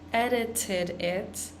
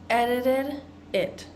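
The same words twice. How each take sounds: First: The t sounds are pronounced as crisp t's. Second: The t sounds are pronounced as soft d's. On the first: "pronouncing those T's, like t" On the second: "add in those D sounds"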